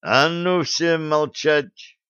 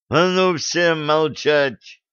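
First: Slow, heavy angry order; thundering command. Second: Slow, heavy angry command; furious yell. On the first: Blad bangs the table and orders everyone silent, slow and angry. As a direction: slam it down like a fist on the table. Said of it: "грохнул по столу кулаком Блад". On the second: Enraged captain orders the squabbling girls to be silent, slow and forceful. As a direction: hammer each word to shut them up. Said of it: "заорал взбешённый Блад". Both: Acted.

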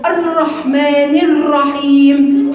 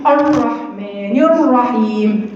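First: الرحمن الرحيم with a muffled, tight r; slow demo of a muffled r in الرحيم. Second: الرحمن الرحيم with the r cut off in the throat; slow demo of a throat-made r in الرحيم; throaty r. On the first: Teacher shows the wrong muffled r, slow. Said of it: "يطلع كده". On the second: Teacher imitates beginners' throaty r, slow. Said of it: "من حنجره نقول لك". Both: Shown as a demonstration.

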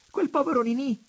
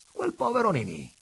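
First: Very high, loud, amused exclamation; laughing outburst. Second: High, loud repeat with a smile; amused echo. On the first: Daughter mocking the poor suitor, laughing irresistibly. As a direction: blurt it high through a burst of laughter. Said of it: "con uno scatto di riso irresistibile". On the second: Father repeating his daughter's words, smiling too. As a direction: echo the amusement, a step below a full outburst. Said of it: "scrollando il capo e sorridendo anche lui". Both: A narrator's reading.

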